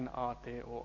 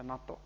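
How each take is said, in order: First: It is spelled out letter by letter. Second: It is said as one whole word. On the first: The speaker calls it wrong. "Tätähän ei sanota silleen" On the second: The speaker calls it right. "vaan se lausutaan"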